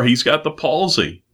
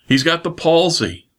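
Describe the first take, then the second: First: Said in the usual way. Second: Palsy lifted higher on the repeat; emphatic repeat. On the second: Shown as a demonstration. Preacher insists to Brother Jim on the man's need, stressing palsy. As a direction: lean on palsy, He's got the palsy, pitched up. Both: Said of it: "that's not what they brought him for".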